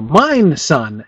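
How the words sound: The stress is on 'mine'. The absurd part is claiming to own anything. "lay the stress on mine"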